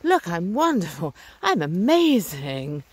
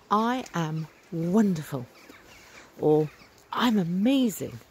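First: Drawn-out, showy mock bragging; mock boasting. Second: Heartfelt, slowly savoured declaration; heartfelt enthusiasm. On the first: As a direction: show off with exaggerated self-importance, stretching the words. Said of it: "being something about my ego". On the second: Retold or imitated. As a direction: say it as if you really mean it. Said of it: "And I really, really mean it".

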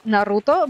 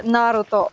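First: "Naruto" with the middle syllable stressed. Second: "Naruto" with the first syllable stressed. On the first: Explaining Russian variants to a friend, "Naruto" stressed on the middle syllable. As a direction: lean on the "ru" in "Naruto". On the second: Explaining Russian variants to a friend, "Naruto" stressed on the first syllable. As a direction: punch the opening syllable of "Naruto". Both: Shown as a demonstration. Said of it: "stress, 'cause, like, in Russian".

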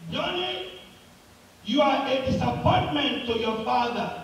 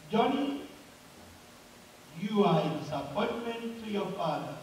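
First: Crying out loud. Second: Echoing voice. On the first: Boy cries out at himself, mildly acted call. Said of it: "he cried loud again and said". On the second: Mountain answers the crying boy, softer acted echo. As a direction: repeat it as a fading echo. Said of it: "Then the voice came back again". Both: Acted.

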